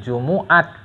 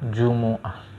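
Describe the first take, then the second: First: The word ends with a t sound. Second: The word ends with an h sound. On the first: This is the Iranian way of saying it. "Kalau cara Iran" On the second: This is the Arabic way of saying it.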